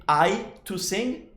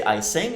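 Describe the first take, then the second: First: Slow, deliberately broken phrase "I to sing"; wrong form, slowed. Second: Said in the usual way. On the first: Shown as a demonstration. Teacher showing students the wrong way, slow and careful. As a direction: spell out the wrong version slowly. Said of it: "we don't say". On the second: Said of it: "but we say".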